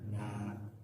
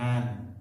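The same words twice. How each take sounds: First: It ends with a long vowel and no n. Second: It ends with a short vowel and an n sound. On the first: This is how the word is read when stopping. "kalau berhenti menjadi nan" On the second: This is how the word is written. "Ditulisnya nan"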